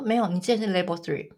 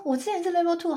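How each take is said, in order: First: Said in the usual way. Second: Higher, disbelieving "我之前是level two"; surprised protest. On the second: Retold or imitated. Protesting her test result to the tester, surprised. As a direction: insist in disbelief on the old level.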